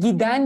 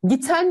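First: It uses the soft d sound in the middle. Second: It keeps the hard t sound in the middle. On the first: The speaker calls it right. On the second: The speaker calls it wrong.

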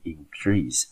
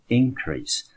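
First: The stress is on the second syllable. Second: The stress is on the first syllable. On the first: It is used as a verb. "当作动词的时候要念成increase" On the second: It is used as a noun. "当它当作名词增加的时候我们念成increase"

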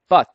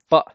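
First: The final T is fully pronounced. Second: The final T is a glottal stop. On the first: "You can say but" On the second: "This is a glottal T"

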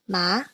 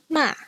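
First: It is said with the second tone. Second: It is said with the fourth tone. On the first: "The second tone is represented with an acute accent" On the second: "here is the fourth tone"

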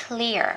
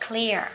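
The two takes are said the same way.

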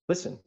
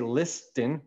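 First: The t sound is silent. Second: The t sound is pronounced. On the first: The speaker calls it right. "we say listen" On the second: The speaker calls it wrong. "We don't say listen"

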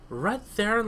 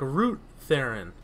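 First: The first syllable has a short vowel like 'rut'. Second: The first syllable has a long vowel like 'root'. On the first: "Is it Rut-Theron?" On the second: "Like, the root of the tree"

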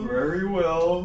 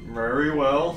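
First: It is said in a high, Canadian-accented voice. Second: It is said in a normal voice. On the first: The speaker calls it right. "Because he's like high in Canadian shit" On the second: The speaker calls it wrong. "Shit, I have to figure out how to"

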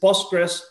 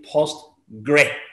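First: The word ends with an s sound. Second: The word ends without an s sound. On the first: The speaker calls it right. "just Postgres" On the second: The speaker calls it wrong. "Note that there's no S at the end"

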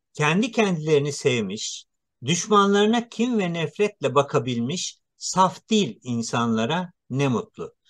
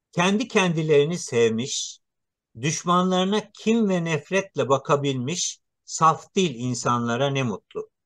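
The two takes are said the same way.

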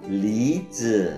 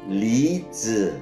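No difference in how they are said.

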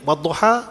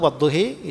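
First: The final vowel is an open a sound. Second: The final vowel is clearly raised toward e.

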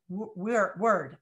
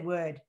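First: The word is said with a general American accent. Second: The word is said with a Boston accent. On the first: "the word word" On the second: "I'll say wood"

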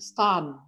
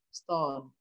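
First: The vowel sounds like an open 'a'. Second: The vowel sounds like a rounded 'o'. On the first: This is the older pronunciation of the word. "kalau dulu ada bacanya stun. Ya, dibaca A, bukan dibaca setengah O" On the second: This is the present-day pronunciation of the word. "Kalau sekarang kan jadi setengah O ya"

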